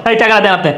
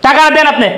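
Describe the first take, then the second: First: Firm demand, pitch dropping low; lower-pitched insistent order; stern demand. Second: Raised-voice repeated demand; insistent, escalating order; angry demand. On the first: Son-in-law demanding money, first take. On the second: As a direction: push the demand up and out. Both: Acted.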